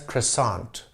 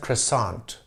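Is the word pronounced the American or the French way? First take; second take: American; American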